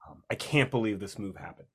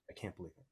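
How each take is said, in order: First: Said in the usual way. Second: Dropped almost to nothing, stunned; a hushed, stunned repeat of the disbelief; near-silent disbelief. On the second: Real, not acted. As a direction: let it fall away under your breath. Repeating disbelief about cancellation.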